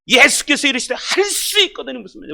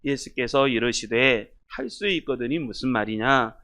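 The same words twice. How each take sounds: First: It is read as a loud rebuke. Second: It is read mildly, without rebuke.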